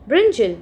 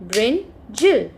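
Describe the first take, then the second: First: Said in the usual way. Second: "brinjal" drawn out as brin, jal; split into syllables. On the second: Shown as a demonstration. Teacher showing children two syllables, "brinjal" split as brin, jal. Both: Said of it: "if we have two syllables".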